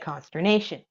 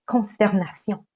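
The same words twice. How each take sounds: First: It is said with an English accent. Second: It is said with a French accent. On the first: "you put an English accent on it" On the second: "With a French accent"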